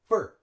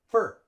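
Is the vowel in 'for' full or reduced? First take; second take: reduced; reduced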